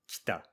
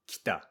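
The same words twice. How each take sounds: No difference in how they are said.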